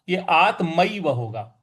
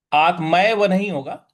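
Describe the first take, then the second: First: आत्मैव said with ऐ, as आत्मइव; right vowel ऐ. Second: आत्मैव said with a plain ए, as आत्मेव; wrong vowel. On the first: Teacher giving the correct reading to students. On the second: Teacher showing the wrong reading to students. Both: Shown as a demonstration.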